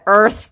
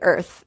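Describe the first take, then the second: First: The word is said with a strong American accent. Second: The word is said softly with a mild accent. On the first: The speaker calls it wrong. "if you say it in like a really emphasized American accent" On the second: The speaker calls it right. "it sounds really pretty, Earth, if you say it that way"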